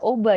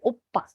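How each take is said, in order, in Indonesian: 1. Konsonan tengahnya adalah bunyi b yang lembut. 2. Konsonan tengahnya adalah bunyi p yang keras. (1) "bukan oba ya dibacanya" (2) "tapi opa"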